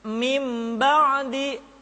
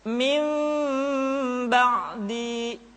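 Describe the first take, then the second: First: The m is full with lips fully closed. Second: The m is faint with lips slightly apart. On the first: The speaker calls it wrong. "tidak dibaca ... dengan menyempurnakan mim" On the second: The speaker calls it right. "kedua bibir kita agak sedikit direnggangkan, tidak sempurna rapat"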